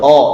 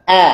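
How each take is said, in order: First: The vowel is heavy and sounds like o. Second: The vowel is light and sounds like a. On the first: The speaker calls it wrong. "bukan o" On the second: The speaker calls it right. "tapi a"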